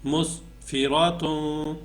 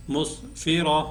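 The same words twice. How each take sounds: First: Slow مسفراتوں with a long nasal "toon"; joined reading with tanween. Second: مسفرہ ending short on h, no "toon"; waqf, pausal reading. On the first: Teacher reading the full word, drawn-out nasal end on مسفراتوں. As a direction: stretch the last nasal of مسفراتوں. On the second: Teacher showing how to pause, مسفرہ closed on h. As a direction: stop مسفرہ on a breathed h. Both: Shown as a demonstration. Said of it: "اگر وقف کریں گے تو".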